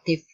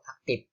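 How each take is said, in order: First: The word ends with an F sound. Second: The word ends with a P sound. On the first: The speaker calls it right. "Biasanya orang Sunda itu tidak aktif" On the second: The speaker calls it wrong. "yang harusnya F malah dilafalkannya P"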